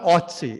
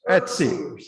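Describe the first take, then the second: First: The first vowel is a plain o sound. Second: The first vowel is a rounded umlaut ö sound. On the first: The speaker calls it wrong. "It's not Otzi" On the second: The speaker calls it right. "you pronounce the umlaut"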